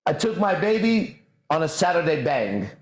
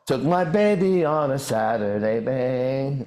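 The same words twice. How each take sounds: First: Said in the usual way. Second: Mimicking the song. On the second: Shown as a demonstration. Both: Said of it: "you just can't hear it".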